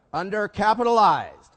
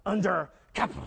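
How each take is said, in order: First: Undercapitalized said slow and loud, stretched out; heavy meaningful Undercapitalized; drawn-out stress. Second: Said in the usual way. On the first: Shown as a demonstration. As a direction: lean hard on Undercapitalized, slowly. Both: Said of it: "you can say as much by your inflection".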